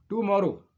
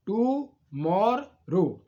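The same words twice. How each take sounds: First: Said in the usual way. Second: टू मोर रो slowly, each syllable separate; split into syllables. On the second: Shown as a demonstration. Teacher showing three syllables, टू मोर रो slowly pulled apart. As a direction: break टू मोर रो into three drawn-out beats. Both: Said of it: "अब तीन syllable देखिए".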